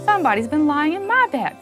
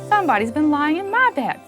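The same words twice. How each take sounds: First: It is said in a middle-sized voice. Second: It is said in a middle-sized voice.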